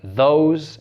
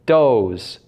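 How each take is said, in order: First: The word begins with a th sound. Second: The word begins with a d sound.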